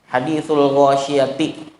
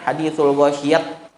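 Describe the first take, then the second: First: The phrase ends with a full -ti syllable. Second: The phrase ends with a clipped t sound. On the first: The reader continues without stopping. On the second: Some tribes keep the t when stopping.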